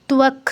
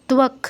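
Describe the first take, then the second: The two takes are said the same way.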